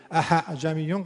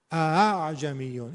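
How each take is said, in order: First: اعجمیون with the second hamza turned into an h; wrong hamza. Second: اعجمیون slowly, first hamza sharp, second eased; correct eased hamza. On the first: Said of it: "اعجمیون غلطه". (اعجمیون اشتباه با ه) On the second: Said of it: "این درسته". (اعجمیون درست، آهسته) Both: Shown as a demonstration.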